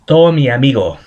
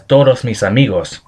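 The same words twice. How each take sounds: First: Todo mi amigo with every final s swallowed; Caribbean dropped s. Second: Todos mis amigos with every s clearly sounded; full standard form. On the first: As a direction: say todo mi amigo, slurring off the s endings. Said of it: "A sample phrase is". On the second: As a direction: say todos mis amigos, crisp final s on each word. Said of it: "would be pronounced as". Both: Shown as a demonstration.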